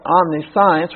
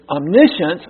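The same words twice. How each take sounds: First: The word is sounded out as it is spelled. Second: The word is said in its usual pronunciation. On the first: The speaker calls it wrong. "Then you have what looks like omniscience" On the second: The speaker calls it right. "which is omniscience"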